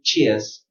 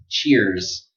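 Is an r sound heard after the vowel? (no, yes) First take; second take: no; yes. First: No r sound is heard after the vowel. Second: An r sound is heard after the vowel. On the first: "in British pronunciation" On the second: "say cheer and then z"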